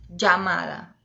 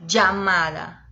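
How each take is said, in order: Both takes have the same delivery.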